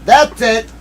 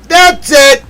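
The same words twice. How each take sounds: First: Higher and louder; triumphant call. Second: Very high, loud squeal; triumphant shriek. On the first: Streamer to chat, triumphant. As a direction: call it out victorious. First take. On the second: Streamer to chat, squealing in victory. Second take higher. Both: Real, not acted.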